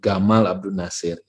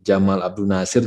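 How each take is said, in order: First: The name starts with a hard g sound. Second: The name starts with a j sound.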